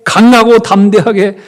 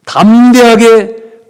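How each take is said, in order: First: Bold exhortation. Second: Slow, drawn-out, much louder and higher; bold exhortation. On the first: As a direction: stress on 강하고, loud and higher. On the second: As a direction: stretch out 담대하게 like a rallying call. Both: Acted. Pasteur exhorte l'assemblée.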